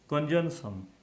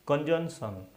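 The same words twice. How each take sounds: The two takes are said the same way.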